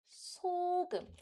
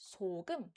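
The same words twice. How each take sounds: First: The word starts on a high pitch. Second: The word starts on a low pitch. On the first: The speaker calls it right. "we read this with, with salt as 소금" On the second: The speaker calls it wrong. "We don't read it as 소금. Then it's wrong"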